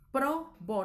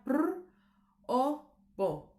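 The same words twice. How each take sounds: First: "probó" in two beats, pro - bó; división silábica correcta. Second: "pr o bo" in three broken pieces, trilled prr alone; división incorrecta. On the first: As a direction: keep pr with the o in "probó", then bó. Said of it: "entonces sería". ("probó" separado en pro - bó) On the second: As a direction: strand the consonants: "pr", pause, "o", pause, "bo". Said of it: "no sería". ("pr o bo" partido, con la pr suelta) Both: Shown as a demonstration.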